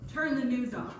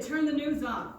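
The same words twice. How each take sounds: First: Repeated louder command; firm big-brother order. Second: Louder, firmer command to turn it off; firm big-brother order. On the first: Brother repeating his order to his sister, firm and louder. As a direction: insist like an older brother. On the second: Brother firmly ordering his scared sister, a louder command. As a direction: say it like a big brother laying down the law. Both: Retold or imitated. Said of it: "he said it like that".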